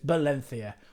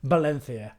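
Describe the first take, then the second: Both takes have the same delivery.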